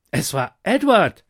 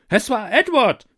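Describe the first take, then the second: First: Loud jester voice pointing the finger; jester's accusing call. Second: High, loud accusation; accusing cry. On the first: Jester accuses the taster, loud and pointed. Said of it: "rief der Hofnarr". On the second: The court blames Edward, loud and accusing. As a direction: everyone points the finger at once. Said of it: "sagten sie alle". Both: Acted.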